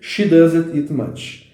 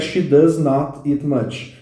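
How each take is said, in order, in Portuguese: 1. 'Not' é contraído em 'does' e dito como uma só palavra. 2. 'Not' é dito como uma palavra separada e completa. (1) "forma contraída da frase" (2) "que seria a forma normal da frase"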